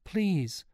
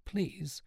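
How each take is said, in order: First: High-pitched, helpless please; mild stammering entreaty; faltering plea. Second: Soft, high-pitched plea; hushed, imploring please; begging. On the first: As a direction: plead as if words fail. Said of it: "stammered Sean". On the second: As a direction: beg in a small voice. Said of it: "begged Sean". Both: A narrator's reading.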